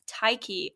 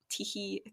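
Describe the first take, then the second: First: The name is said with English pronunciation. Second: The name is said with Greek pronunciation.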